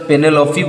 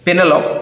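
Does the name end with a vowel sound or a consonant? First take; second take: vowel; consonant. First: The name ends with a final vowel sound. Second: The name ends on a consonant sound.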